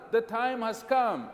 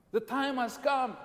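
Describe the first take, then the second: No difference in how they are said.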